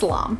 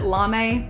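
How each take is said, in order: First: The name sounds like 'larm', with an r. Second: The name sounds like the English word 'lame'. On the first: The speaker calls it right. "it's just L'Arme. So I think it's" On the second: The speaker calls it wrong. "I always get this wrong. I used to pronounce it"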